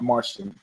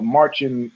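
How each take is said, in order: First: The middle consonant is not a 'ch' sound. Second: The middle consonant is a 'ch' sound. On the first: The speaker calls it wrong. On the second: The speaker calls it right. "So it's a C H sound"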